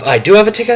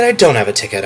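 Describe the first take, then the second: First: "I do have a ticket" lifted high and bright with hope; hopeful. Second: "I don't have a ticket" dropped lower and let down; deflated. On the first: Retelling the day's ticket seesaw, hopeful high take. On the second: Retelling the day's ticket seesaw, deflated low take. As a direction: sink the voice, mock disappointment. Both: Retold or imitated. Ticket hopes going back and forth.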